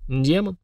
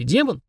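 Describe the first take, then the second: First: Said in the usual way. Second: ДЕМОН asked with pitch jumping up; questioning. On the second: A narrator's reading. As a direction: make ДЕМОН a curious question, higher. Goblin asks, Frundarok answers. («демон» с вопросительной интонацией)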